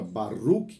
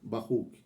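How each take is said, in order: First: The r is a light, non-throaty sound. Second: The r is a throaty, het-like sound. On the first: This is the older pronunciation. "que nós aprendemos a pronunciar dessa forma, com o hebraico mais antigo" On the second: This is the modern pronunciation. "o hebraico moderno está pronunciando muito semelhantemente ao het"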